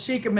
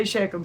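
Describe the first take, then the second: First: Shechem said as SHEE-kum; first syllable of Shechem like "she"; long-E pronunciation. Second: Shechem said as SHEK-um; first syllable of Shechem rhymes with "check"; short-E pronunciation. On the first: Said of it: "And it says Shechem". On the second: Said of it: "I always say Shechem". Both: Shown as a demonstration.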